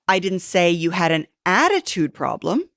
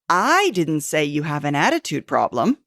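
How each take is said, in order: First: The word "attitude" is stressed. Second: The word "I" is stressed.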